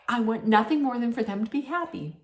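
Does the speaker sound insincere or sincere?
sincere. It is said in a warm, sincere-sounding way. The wish is genuinely meant. "She didn't say it like this"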